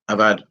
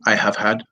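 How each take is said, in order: First: Have is reduced and joined to I. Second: Have is said in full as a separate word. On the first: The speaker calls it right. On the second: The speaker calls it wrong.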